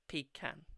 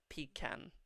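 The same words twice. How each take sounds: First: It is said in an English accent. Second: It is said in an English accent.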